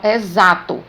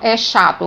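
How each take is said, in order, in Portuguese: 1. O x tem som de z. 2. O x não tem som de z. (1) "eu falo exato, tem o som de Z" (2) "mas eu não falo"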